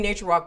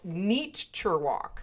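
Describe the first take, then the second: First: The first syllable sounds like nate, rhyming with late. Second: The first syllable sounds like the word neat. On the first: "It's supposed to be nature walk" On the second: "It's called Neature Walk. So it's like N E A T U R walk"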